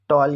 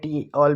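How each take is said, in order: First: It is said as one word, 'tall'. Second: It is said as the letter T plus 'all'. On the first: "टॉल या टी ऑल भी बोल सकते हैं" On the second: "टॉल या टी ऑल भी बोल सकते हैं"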